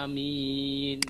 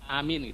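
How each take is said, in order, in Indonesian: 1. Kedua vokal dibaca panjang. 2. Salah satu vokalnya dibaca pendek. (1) "A-nya panjang, mimnya panjang ya" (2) "kalau salah satunya pendek itu nanti bisa berubah makna"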